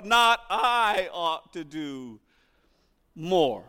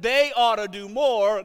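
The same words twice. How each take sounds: First: Slow line with I drawn out in contrast; drawn-out I, then "more" after a pause; stress on I. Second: THEY picked out as the ones responsible; stress on THEY. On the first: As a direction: put the weight on "I", stretching it slowly. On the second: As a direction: put the weight on "they". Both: Shown as a demonstration. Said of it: "our own attitude being expressed".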